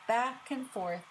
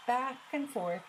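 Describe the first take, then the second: No difference in how they are said.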